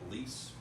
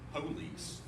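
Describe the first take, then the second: First: The first syllable is squeezed so it sounds like please. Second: Both syllables of the word are clearly pronounced. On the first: The listener hears the word please. The speaker calls it wrong. "they think you're saying please" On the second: The listener understands it as police. The speaker calls it right. "you have to say it that way"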